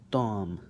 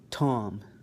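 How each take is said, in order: First: The t is released without a puff of air. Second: The t is released with a puff of air. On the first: "then I'm going to do it with the ta" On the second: "I'm going to do it with the T"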